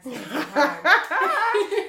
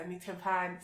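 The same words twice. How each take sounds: First: Drawn out, high, loud, laughing plea; begging dad for cash, hammed-up whine; whiny begging. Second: Said in the usual way. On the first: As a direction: stretch it slow like a cheeky beg.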